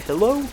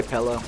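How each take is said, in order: First: "pillow" with a short i, as in "pill"; the standard "pillow", i vowel; correct pillow. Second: "pillow" with an e vowel, like "pel-low"; his accent's "pillow" with an e sound. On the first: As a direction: say "pillow" with a clear i. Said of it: "I think you're supposed to say". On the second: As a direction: say "pillow" as "pelloh". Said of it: "I say". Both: Shown as a demonstration.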